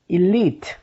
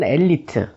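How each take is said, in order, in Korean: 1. 이 단어는 'ee' 소리로 시작해요. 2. 이 단어는 'eh' 소리로 시작해요. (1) "우리는 일리트라고 발음하고" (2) "한국 사람들이 발음하는 엘리트"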